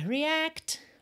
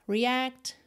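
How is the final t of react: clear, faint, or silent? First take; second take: clear; faint. First: The final t is clearly pronounced. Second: The final t is faintly pronounced. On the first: "pode aparecer mais"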